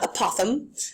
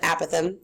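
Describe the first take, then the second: First: The first vowel is unlike the vowel in apple. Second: The first vowel sounds like the vowel in apple. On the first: The speaker calls it wrong. "So not apothem" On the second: The speaker calls it right. "apothem is technically the correct way to pronounce it"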